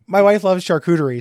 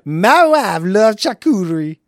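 First: It is spoken in the speaker's ordinary accent. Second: It is spoken in an exaggerated comic foreign accent.

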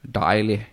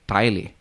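First: It is said with Norwegian pronunciation. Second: It is said with Danish pronunciation. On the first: "In Norwegian, it would be Thaili" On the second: "my word is Thaili"

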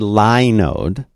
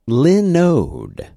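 First: The first syllable sounds like 'lie'. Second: The first syllable sounds like 'lin'. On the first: The speaker calls it wrong. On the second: The speaker calls it right.

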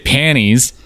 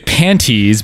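First: The T sound in the middle is dropped. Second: The T sound in the middle is pronounced. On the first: The speaker sounds like a strange little kid. "without the T sound, because then you just sound like a weirdo little kid" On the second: The speaker sounds overly fussy. "because then you sound like a overly like fussy"

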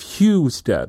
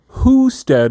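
First: The first syllable sounds like 'hue'. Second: The first syllable sounds like 'who'. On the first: "instead of Husted" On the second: "you're saying who-stead"

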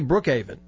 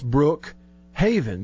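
First: The H at the start of haven is dropped. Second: The H at the start of haven is pronounced. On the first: "But I've heard people say Brookhaven" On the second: "I say the H in Brookhaven because there is an H"

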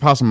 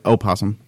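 First: The word begins directly with a p sound. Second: The word begins with a vowel before the p. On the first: The speaker calls it wrong. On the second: The speaker calls it right.

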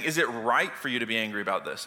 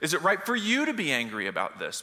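First: The stress is on the word right. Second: The stress is on the word you.

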